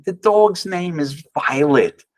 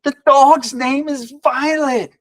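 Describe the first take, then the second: First: Said in the usual way. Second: Much higher, slow and pointed retelling; husband stressing the sign to wife, higher and slow; emphatic repeat. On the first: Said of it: "I look at her and I say". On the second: Retold or imitated. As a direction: press each word so it lands.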